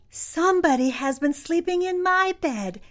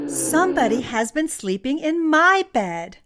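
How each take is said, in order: First: It is said in a small, high voice. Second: It is said in a medium, grumbling voice. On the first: "said Baby Bear in his loudest little voice" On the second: "In her medium-sized voice she grumbled"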